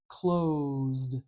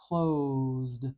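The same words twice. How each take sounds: Both takes have the same delivery.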